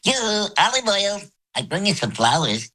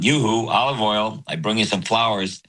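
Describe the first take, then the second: First: It is said in a high voice. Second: It is said in a low voice.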